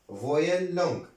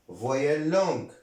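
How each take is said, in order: Both takes have the same delivery.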